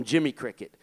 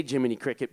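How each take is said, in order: First: Jimmy Cricket, the middle syllable of Jiminy dropped; child's mispronunciation of Jiminy Cricket; mispronounced name. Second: Said in the usual way. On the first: Retold or imitated. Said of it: "couldn't even say Jiminy Cricket because of his accent". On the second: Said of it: "Gene couldn't even say Jiminy Cricket".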